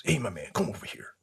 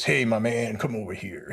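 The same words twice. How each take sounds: First: Fast hushed whisper. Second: Lightly voiced old soldier calling him over; a hint of a casual old-timer's hail; Mr. Lupiak's greeting. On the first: Retold or imitated. Retired soldier calling him over, fast whisper. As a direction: whisper it quickly like a secret. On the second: Retired soldier hailing a young graduate, lightly imitated. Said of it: "he always talks like this".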